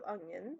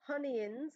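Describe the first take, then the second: First: The word starts with a plain vowel sound. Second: The word starts with an added h sound. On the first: This is the usual way to say it. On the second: This imitates how someone else says it.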